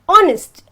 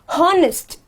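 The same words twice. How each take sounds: First: The word starts with a vowel, no h sound. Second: The word starts with an audible h sound. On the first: The speaker calls it right. "I have to say honest ... this becomes silent" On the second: The speaker calls it wrong. "and not honest"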